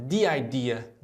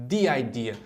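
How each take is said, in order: No difference in how they are said.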